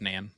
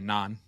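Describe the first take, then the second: First: The word is said in an American accent. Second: The word is said in a British accent. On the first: "I'm pretty sure it's Nan" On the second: "I want to say it with a British accent"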